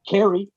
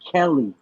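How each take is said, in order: First: The middle consonant is an R sound. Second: The middle consonant is a clear L sound. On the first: The speaker calls it wrong. "they would say Kerry" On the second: The speaker calls it right. "one of the most basic instruments in surgery is called a Kelly"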